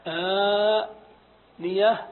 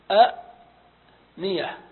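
First: آنية with the opening آ held very long; hamza turned long alif. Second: "أ نية" split by a glottal stop and a pause; two separate hamzas. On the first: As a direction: stretch the first vowel of آنية slowly, no glottal catch inside. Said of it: "إذا نقلب الهمزة ألفا". (آنية بمد الألف مدا طويلا) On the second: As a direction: cut أ short with a catch, pause, then نية. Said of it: "اجتمع عندنا همزتان". (أ نية بهمزتين والثانية ساكنة مع وقفة) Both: Shown as a demonstration.

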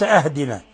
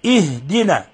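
First: أهدنا starting on an open a, ahdina; wrong opening vowel. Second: اهدنا starting on a clear i, ihdina; correct opening kasra. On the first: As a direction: show the mistake with a for i. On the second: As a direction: begin اهدنا with i, not a. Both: Shown as a demonstration. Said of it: "وليس أهدنا".

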